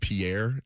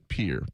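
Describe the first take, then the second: First: The name is said the way it is spelled. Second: The name is said the way locals say it. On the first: This is how outsiders assume it is said. The speaker calls it wrong. "I always thought it was Pierre. It's spelled like Pierre" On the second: This is how the town's people say it. The speaker calls it right. "but they pronounce it Pierre"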